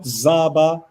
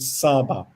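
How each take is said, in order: First: It starts with z and has a b. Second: It starts with s and has a b. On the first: The speaker calls it wrong. "not Zaba" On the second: The speaker calls it right. "you read it Saba"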